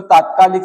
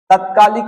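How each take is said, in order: First: तात्कालिक with long "taat"; correct form. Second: तत्कालिक with short first a; wrong form. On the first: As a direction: lengthen the first vowel of तात्कालिक. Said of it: "त में वृद्धि हो जाएगी". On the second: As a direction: start तत्कालिक on short "tat". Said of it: "तत्कालिक नहीं होगा". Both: Shown as a demonstration.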